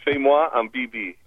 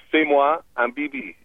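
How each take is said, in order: First: Fais-moi un bibi said again the same way, stress on Fais-moi; French phrase repeated. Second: Fais-moi un bibi, stress on Fais-moi, falling end; French phrase. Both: Shown as a demonstration. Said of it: "let's move into physical contact".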